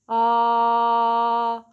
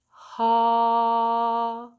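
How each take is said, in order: First: The vowel starts cleanly, neither breathy nor abrupt. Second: The vowel starts softly with a breathy h-like onset. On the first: "practice a balanced between the two" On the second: "with an aspirate attack"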